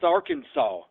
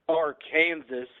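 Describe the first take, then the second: First: The word is not said the way it is spelled. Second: The word is said the way it is spelled. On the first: This is the official way to say the name. "but pronounced Arkansas" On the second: This is how the name is written. "should be spelled Arkansas"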